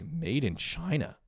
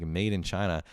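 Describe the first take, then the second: First: Put-on higher, slow, drawn-out kid voice on "Made in China"; puzzled kid reading. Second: Said in the usual way. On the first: Grown man voicing a kid reading the label on his toy, high and slow. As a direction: read the label like a baffled child. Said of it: "So you're just like". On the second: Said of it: "you flip it and it's, like".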